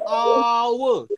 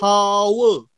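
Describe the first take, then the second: First: The word starts with a vowel, h silent. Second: The word starts with an audible h sound. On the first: The speaker calls it right. "Kita cakap seolah-olah bunyi dia O U R" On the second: The speaker calls it wrong. "kita bukan cakap hour"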